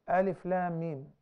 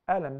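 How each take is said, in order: First: Each letter is named separately with long vowels. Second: It is read as one short word. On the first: These are the opening letters of a chapter. "We read them as separate letters" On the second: This is an ordinary word meaning 'did not'. "we don't pronounce them as Alam"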